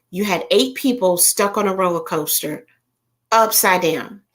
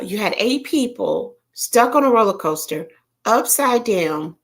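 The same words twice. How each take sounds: First: Said in the usual way. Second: Whisper. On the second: Shown as a demonstration. Repeats the line in a whisper.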